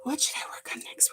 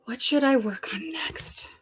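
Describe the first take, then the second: First: Barely audible whisper; softer whisper. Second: Murmured to herself; whisper. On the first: Repeating the question to herself, in a much softer whisper. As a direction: drop right down to a breath. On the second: To herself, wondering what to craft next, in a whisper. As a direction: whisper it while thinking, slowly. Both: Real, not acted. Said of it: "Where's my glasses?".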